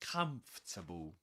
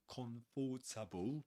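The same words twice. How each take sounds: First: The word is said in three syllables. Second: The word is said in four syllables. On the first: The speaker calls it right. "So we say comfortable" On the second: The speaker calls it wrong. "We don't say comfortable"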